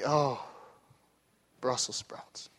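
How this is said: It sounds openly disgusted, with a grimace.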